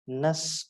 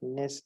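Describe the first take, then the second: First: The ending has a weak 'uh' vowel, like 'nus'. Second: The ending has a clear 'e' vowel, like 'ness'. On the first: The speaker calls it right. "it is nus or nis" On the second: The speaker calls it wrong. "it is not ness"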